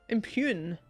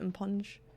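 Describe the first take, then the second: First: The word ends with a long 'yoon' sound. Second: The word ends with a soft 'nj' sound. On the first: The speaker calls it right. "the extended U. Just put P E W N" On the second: The speaker calls it wrong. "I clearly didn't read all the letters in it before I said it"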